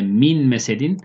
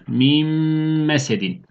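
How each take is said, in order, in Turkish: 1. m'den önce n sesi korunur. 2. n, uzun, burun sesli, tutulan bir m'ye dönüşür. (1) "Normalde min mesedin" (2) "Bu da mim harfine dönecek. İki tane mim harfi okuyoruz ve bir elif miktar tutuyoruz"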